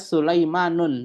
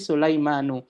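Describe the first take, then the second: First: The name ends with an added n sound. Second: The name ends on a vowel, no n. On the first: The speaker calls it wrong. "tidak boleh dibaca Sulaimanun" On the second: The speaker calls it right. "tetapi Sulaimanu"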